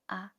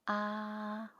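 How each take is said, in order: First: The sound is cut off quickly. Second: The sound is held for longer. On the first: The speaker calls it wrong. "they read it too short" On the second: The speaker calls it right. "keep the sound last a bit longer"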